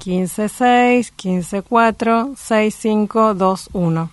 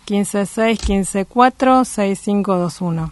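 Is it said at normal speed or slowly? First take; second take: slowly; normal. First: It is said more slowly. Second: It is said at normal speed.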